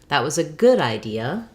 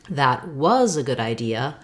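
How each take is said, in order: First: The stress falls on the word good. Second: The stress falls on the word was. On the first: It highlights that the idea was good. "More stress on good than idea" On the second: It highlights that it was in the past. "meaning stressing on the past"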